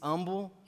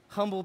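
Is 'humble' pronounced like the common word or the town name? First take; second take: town name; common word. First: It is pronounced the way the town's name is. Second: It is pronounced the way the ordinary word is. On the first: It names a town in Texas. "if you pronounce the city, the town, Humble, Texas, it's humble" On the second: It means modest, the ordinary word. "That's the correct way to say it"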